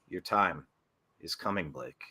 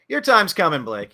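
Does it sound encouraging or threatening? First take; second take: threatening; encouraging. First: It sounds like a menacing threat. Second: It sounds warm and encouraging.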